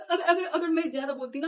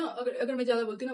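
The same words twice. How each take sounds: First: Laughing through the words, louder. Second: Said in the usual way. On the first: Real, not acted. Girl laughing at how she nearly got beaten, laughing. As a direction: giggle while admitting it.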